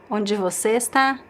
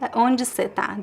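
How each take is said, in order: First: The words você and está are said in full. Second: The words você and está are shortened and reduced. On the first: The speaker calls it wrong. "most Brazilians would never say" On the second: The speaker calls it right. "This is the most common pronunciation"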